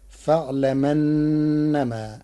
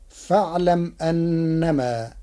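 First: فاعلمنما run together very slowly, the hamza dropped; Warsh reading. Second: Said in the usual way. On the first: Shown as a demonstration. Teacher drawing out the Warsh form slowly for students. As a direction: glide فاعلمنما as one word, the mim taking the a vowel. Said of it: "بنقل حركة الهمز إلى الساكن قبله". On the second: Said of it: "بنقل حركة الهمز إلى الساكن".

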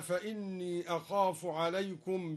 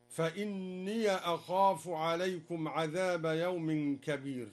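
First: Said in the usual way. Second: "فإني" said fa-inniya, ending in ya; slow recitation, short open "ya" closing "فإني"; fatha on the ya. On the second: Shown as a demonstration. Teacher showing the reading, "فإني" as fa-inniya. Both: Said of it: "بفتح الياء".

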